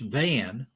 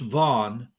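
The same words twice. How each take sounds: First: The name is said with an English pronunciation. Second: The name is said with a Turkish pronunciation. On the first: "we would pronounce it in English Van" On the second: "it's pronounced Van in Turkish"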